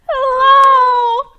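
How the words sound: It sounds happy and excited.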